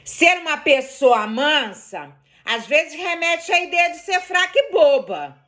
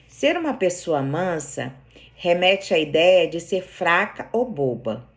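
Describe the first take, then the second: First: The sentence is read in an angry tone. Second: The sentence is read in a calm tone. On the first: "Não parecia que eu tava brigando da segunda vez?" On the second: "eu vou ler uma frase aqui de um jeito"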